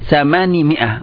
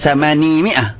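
First: The first word ends without the long ya vowel. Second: The first word ends with the long ya vowel. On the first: The speaker calls it right. "Adat 8, ianya dibuang" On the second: The speaker calls it wrong.

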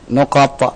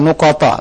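First: The word ends on a stopped, bouncing t. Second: The word ends with an added a vowel. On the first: The speaker calls it right. "Kita matikan to-nya jadi nuqat" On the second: The speaker calls it wrong. "Bukan nuqata"

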